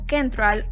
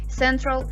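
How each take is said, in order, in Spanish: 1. La palabra empieza con un sonido K. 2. La palabra empieza con un sonido S. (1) "No decimos Central" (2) "la C va a sonar con un sonido S"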